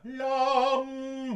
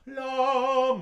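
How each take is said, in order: First: "L'amour" sung with the M held on the A's pitch; energetic consonant placement; M on the previous vowel's pitch. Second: "L'amour" sung with the M already at the OU's pitch; gentle consonant placement; M on the next vowel's pitch. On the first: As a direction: sing "L'amour" with energy pushing behind. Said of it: "Si on laisse la consonne sur la hauteur de voyelle qui précède". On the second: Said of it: "Si on met la consonne à la hauteur de voyelle qui suit". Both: Shown as a demonstration.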